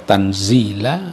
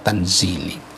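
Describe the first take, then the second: First: The word ends in an 'a' vowel. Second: The word ends in an 'i' vowel. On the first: "bisa dibaca tanzila" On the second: "bisa juga dibaca tanzili"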